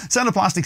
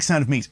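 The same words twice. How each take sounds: First: High pitched name. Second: Said in the usual way. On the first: Shown as a demonstration. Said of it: "And the sound of plastic". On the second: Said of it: "The sound of meat".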